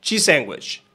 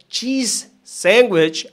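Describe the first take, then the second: First: "cheese sandwich" joined with one S; linked cheese sandwich. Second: "cheese", gap, then "sandwich"; separated cheese sandwich. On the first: Teacher showing the native form, linked. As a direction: run "cheese" straight into "sandwich". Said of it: "ahora es". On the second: Teacher showing the careful form, separated. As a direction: lengthen "cheese" and detach "sandwich". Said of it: "Ahora lo que era". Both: Shown as a demonstration.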